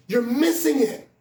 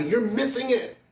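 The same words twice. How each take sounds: First: "missing" punched louder and slower; loud slow repeat. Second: Said in the usual way. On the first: Shown as a demonstration. Preacher driving the moral home to the congregation, louder and slow.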